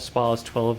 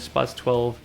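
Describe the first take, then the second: First: The first word has a long open vowel. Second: The first word has a short flat vowel. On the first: This is the proper pronunciation. The speaker calls it right. "if you want to pronounce it right" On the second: This is the speaker's regional habit. The speaker calls it wrong. "being a Yorkshireman I can't help but pronounce it Spaz"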